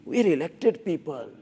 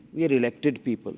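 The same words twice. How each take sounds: First: Lightly voiced smug politician; mock politician. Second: Said in the usual way. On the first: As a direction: parody a preening elected official. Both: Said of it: "you know how they talk?".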